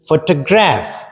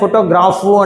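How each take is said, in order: First: The word ends on the 'f' sound. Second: The word ends with an added 'u' vowel. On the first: The speaker calls it right. "అట్లనే పలకాల" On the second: The speaker calls it wrong. "నేను ఫోటోగ్రాఫు అంటానంటే అది నీకు నీ భాష ఎదుటోడికి అర్థం కాదు"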